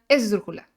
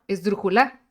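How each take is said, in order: First: The stress is on the first syllable. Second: The stress is on the last syllable.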